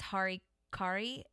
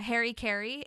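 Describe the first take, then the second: First: It is pronounced like a Japanese word. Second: It is pronounced like an English personal name. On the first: The speaker calls it right. "the way that it's supposed to be pronounced" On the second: The speaker calls it wrong. "that's not actually how it's pronounced apparently"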